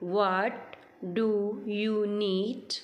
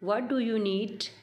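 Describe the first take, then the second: First: The sentence is spoken slowly. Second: The sentence is spoken fast. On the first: "पहले आप slowly बोलें" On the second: "और फिर आप speed से बोलें"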